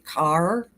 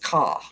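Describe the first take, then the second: First: The r sound at the end is pronounced. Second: The r sound at the end is dropped. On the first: This is the speaker's own way of saying it. "I say car" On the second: This is how someone else used to say it. "She says caw"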